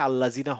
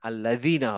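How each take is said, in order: First: The consonant before '-ina' is a 'j' sound. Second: The consonant before '-ina' is a 'd' sound. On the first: The speaker calls it wrong. "আল্লাজিনা হবে না" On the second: The speaker calls it right. "আল্লাদিনা হবে"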